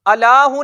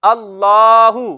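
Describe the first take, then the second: First: अलाहू said with a short, unheld l; अलाहू without the doubled l, as the wrong reading; wrong short form. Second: अल्लाहू slow, with the ll held long; doubled l held. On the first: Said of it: "इसको हम अलाहू नहीं पढ़ते". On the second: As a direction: stretch अल्लाहू, leaning on the doubled l. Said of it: "बल्कि क्या पढ़ते हैं?". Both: Shown as a demonstration.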